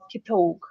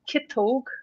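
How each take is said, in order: First: The stress is on the second syllable. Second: The stress is on the first syllable. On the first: "And in Munster, it'd be Kitog" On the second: "Same again for the left hand"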